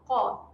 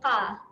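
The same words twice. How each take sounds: First: The q sound is thick and heavy. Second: The q sound is thin and light. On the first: The speaker calls it right. "Kita tebalkan bunyi huruf qaf" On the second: The speaker calls it wrong. "Bukan bunyi qa"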